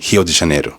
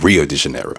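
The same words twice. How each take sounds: First: The first sound of Rio is an H. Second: The first sound of Rio is an R. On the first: The speaker calls it right. "the R can become a H sound, as in" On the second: The speaker calls it wrong.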